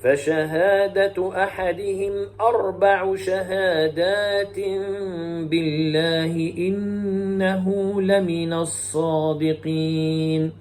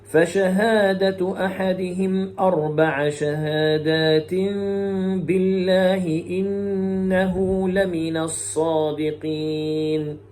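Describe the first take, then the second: First: أربع chanted as arba'u, "u" ending; slow tajweed chant, أربع ending in "u"; Hafs reading. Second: أربع chanted as arba'a, "a" ending; slow tajweed chant, أربع ending in "a"; Shu'ba reading. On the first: Teacher showing Hafs's reading, slow chant with أربع as arba'u. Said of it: "ويقرأ حفص بالرفع هكذا". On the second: Teacher showing Shu'ba's reading, slow chant with أربع as arba'a. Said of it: "يقرأ شعبة بنصب كلمة". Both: Shown as a demonstration.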